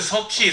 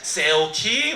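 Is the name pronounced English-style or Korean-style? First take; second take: Korean-style; English-style. First: The name is said with native Korean pronunciation. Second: The name is said with English-speaker pronunciation. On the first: "그래서 저는 석희" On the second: "제 이름 발음도 못하면서 ... 세오키 막 이러면서"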